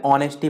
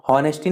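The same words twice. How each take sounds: First: "ऑनेस्टी" starting straight on the vowel; silent H. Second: "हॉनेस्टी" with the H sounded at the start; mispronounced "हॉनेस्टी", opening on a spoken H; wrong pronunciation. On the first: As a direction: say "ऑनेस्टी" with no h sound. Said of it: "एच silent रहता है". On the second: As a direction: say "हॉनेस्टी" with an audible h. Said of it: "हॉनेस्टी नहीं पढ़ते हैं". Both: Shown as a demonstration.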